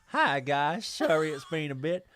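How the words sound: It is read in a Southern American accent.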